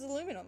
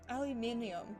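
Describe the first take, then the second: First: It is said the American way. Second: It is said the Australian way. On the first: "You pronounce it as aluminum" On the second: "we have such different English as well"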